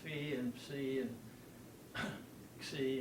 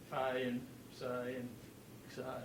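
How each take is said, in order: First: The letter names end with an 'ee' vowel. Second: The letter names end with an 'eye' vowel. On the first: This is the classical Greek pronunciation. "in the uh, classical system, the i's at the end of phi" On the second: This is the British English pronunciation. "in the English system, those are all I"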